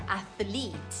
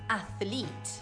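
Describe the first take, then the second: The two takes are said the same way.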